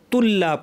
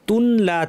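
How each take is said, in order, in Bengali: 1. 'ন' পুরোপুরি দ্বিত্ব 'ল'-এর সঙ্গে মিশে যায়। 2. 'ন' ল-এর আগে আলাদাভাবে উচ্চারিত হয়। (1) "লাম পরিপূর্ণ ইদগাম বা সংযুক্তি হয়ে তুল্লা পড়ব, নুন থাকবে না" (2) "তুন লা ছিল"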